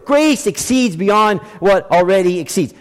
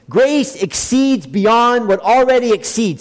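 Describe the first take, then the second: First: Said in the usual way. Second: "Grace" drawn out and leaned on, slow read; stress on grace, slow. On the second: Shown as a demonstration. Preacher to congregation, slow stress on "Grace". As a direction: slowly lean on "Grace" and let the phrase roll. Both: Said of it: "That's a literal reading of that word".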